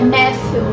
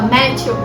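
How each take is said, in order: First: The name is said with English pronunciation. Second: The name is said with Brazilian Portuguese pronunciation. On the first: "se pronuncia Matthew" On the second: "porque eu sou brasileira, vou falar Matthew"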